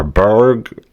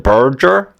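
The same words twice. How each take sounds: First: "berg" said short, one syllable with a hard g. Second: "burger" said as "burjer" with a soft J sound. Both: Shown as a demonstration. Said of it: "how do you pronounce".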